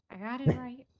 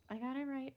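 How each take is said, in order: First: Proud exclaim. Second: Said in the usual way. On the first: Real, not acted.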